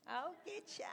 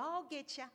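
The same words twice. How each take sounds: First: Higher and softer, "get ya" rising slyly; a quieter, knowing repeat of the tease; hushed, high, sly "I'll get ya" ending on a rise; sly playful God. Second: Higher, teasing "I'll get ya" with a falling end; higher, playful "I'll get ya" that lands with a falling finish; playful God. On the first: God playfully voiced, teasing. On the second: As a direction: tease like a God who enjoys catching people. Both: Acted.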